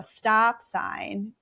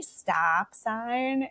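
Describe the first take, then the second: First: Said in the usual way. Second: Put-on drawn-out "stop sign", poking fun at a Midwestern accent; mocked Midwestern accent. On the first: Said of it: "everybody started making fun of my accent". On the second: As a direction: STOP said slowly in a mock Upper Midwest accent. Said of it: "making fun of my accent".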